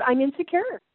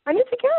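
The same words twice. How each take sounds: First: Said in the usual way. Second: Mother confessing to her daughter, "insecure" pitched high and loud; "insecure" jumped up high and louder. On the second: Retold or imitated. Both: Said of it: "I said".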